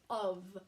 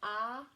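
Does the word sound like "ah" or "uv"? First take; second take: uv; ah. First: It is said like "uv", ending in a v sound. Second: It is said as it is spelled, like "ah". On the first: The speaker calls it right. "but it doesn't. It says of" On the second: The speaker calls it wrong. "if you were sounding it out um, the way it's spelled, you would think it said ah"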